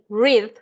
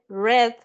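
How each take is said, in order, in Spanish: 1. La vocal es larga, como en 'reed'. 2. La vocal es corta, como en 'red'. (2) "ese leer en pasado se pronuncia como el color"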